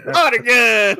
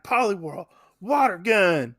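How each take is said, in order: First: High, loud Texas twang; mock Texan battle cry; exaggerated Texas accent. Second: Lightly Texan battle command; hint of a Texas twang; Texas accent. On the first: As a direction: shout it like a hammed-up Texan. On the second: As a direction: call the move with a slight Texas accent. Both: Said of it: "when did Red get a Texas accent".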